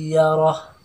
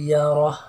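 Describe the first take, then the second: The two takes are said the same way.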